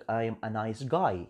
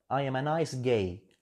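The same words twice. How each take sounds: First: "guy" with an open eye vowel; correct pronunciation. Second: "gay" with an ay vowel where guy is meant; wrong pronunciation. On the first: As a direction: say "guy" to rhyme with "my", set apart from gay. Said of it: "يختلف لما نقول لك". (نطق صحيح: guy بصوت آي مفتوح) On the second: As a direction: slowly mispronounce guy as "gay". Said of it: "نطقك غلط". (نطق خاطئ وبطيء: gay بدل guy) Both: Shown as a demonstration.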